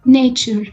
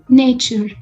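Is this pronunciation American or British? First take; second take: American; American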